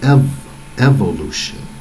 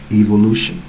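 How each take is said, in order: First: The first vowel is a short 'eh' sound. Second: The first vowel is a long 'ee', like 'evil'. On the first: The speaker calls it wrong. "makes you say ev- evolution" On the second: The speaker calls it right. "Englishmen even say it that way"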